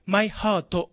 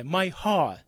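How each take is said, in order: First: My heart said as "mai haa-to"; katakana final vowel. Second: My heart ending on open "haa"; dropped final consonant. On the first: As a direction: add a full "to" to "my heart". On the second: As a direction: say "my heart" without the t. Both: Shown as a demonstration. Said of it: "じゃなくて".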